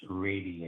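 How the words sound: The first syllable sounds like 'ray', general American.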